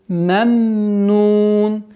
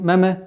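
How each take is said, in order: First: The word is said calmly, finishing the second m. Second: The word is said hurriedly, clipping the second m. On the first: The speaker calls it right. "А нужно спокойно" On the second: The speaker calls it wrong. "торопливость в этом моменте переходит в, в калкаля"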